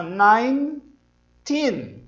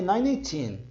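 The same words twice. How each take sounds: First: Put-on "nineteen" slowly in two parts, nain, TEEN; correct NINETEEN. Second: Put-on "nineteen" in three syllables, nai-nee-TEEN; mispronounced NINETEEN. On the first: Teacher showing "fica nineteen", slow two-syllable nain-teen. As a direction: join "nine" with silent E to a long "teen" in "nineteen". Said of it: "acrescentar o teen ao som". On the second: Teacher imitating a learner's mistake, "nineteen" said as nai-nee-teen. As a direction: put an extra ee inside "nineteen". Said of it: "Isso não existe". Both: Shown as a demonstration.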